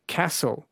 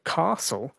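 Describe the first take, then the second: First: "castle" with a short flat a, as in cat; American-sounding a in "castle". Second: "castle" with a long ah, as in car; broad drawn-out ah in "castle". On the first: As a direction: say "castle" the Victorian way, rhyming with hassle. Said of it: "sound American". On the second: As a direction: say "castle" as CAH-sul. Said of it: "instead of castle". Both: Shown as a demonstration.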